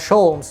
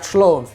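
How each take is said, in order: First: The o sound comes before the l. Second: The l sound comes before the o. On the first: The speaker calls it right. "make sure to pronounce it as Sholmes" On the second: The speaker calls it wrong. "not Shlomes"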